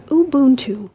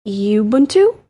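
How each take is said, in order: First: "Ubuntu" said oo-BOON-too; "Ubuntu" starting with an oo sound; correct pronunciation. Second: "Ubuntu" said you-BOON-too; "Ubuntu" starting with a you sound; wrong pronunciation. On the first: Host giving the correct way to say Ubuntu. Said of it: "this one is Ubuntu". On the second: Host showing the wrong way to say Ubuntu. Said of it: "it's not". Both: Shown as a demonstration.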